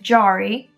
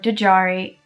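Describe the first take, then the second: First: The name starts without any D sound. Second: The name starts with a D sound. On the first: The speaker calls it right. "that is Jari, It is a silent D" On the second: The speaker calls it wrong. "not D J Ari or Djari"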